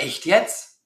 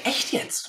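First: Mildly incredulous echo question; questioning retort. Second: Softer, higher echo of his question; echoed retort. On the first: Man doubting what she told him, questioning. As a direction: ask it back in doubt, rising at the end. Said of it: "Dann sagt er". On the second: Speaker echoing the doubter to keep him guessing, softly. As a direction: hand the question back lightly and softly. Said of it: "Ich sage". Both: Retold or imitated.

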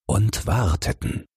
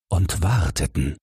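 The two takes are said the same way.

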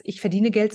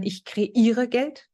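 First: Said in the usual way. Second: Slow, leaning hard on "kreiere"; stress on kreiere. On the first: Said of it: "gibt's bei mir gar nicht mehr den Satz". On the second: Shown as a demonstration. Coach swapping the old money phrase, slow stress on "kreiere". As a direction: draw out "kreiere" with a rise.

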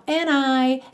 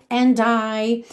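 First: "and I" as "a-nai"; joined on N. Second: "and I" as "an-dai"; joined with D. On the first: Teacher contrasts both possibilities, linked on N. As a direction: drop the d in "and I" and link the n. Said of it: "ele juntou and I no N". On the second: Teacher contrasts both possibilities, linked with D. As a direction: sound the d of "and I" into the vowel. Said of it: "juntou com D certinho". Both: Shown as a demonstration.

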